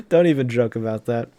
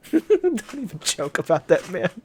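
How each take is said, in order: First: Said in the usual way. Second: Laughing through the words, high; real amused protest. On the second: Real, not acted. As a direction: chuckle while you say it. Reader reacts laughing.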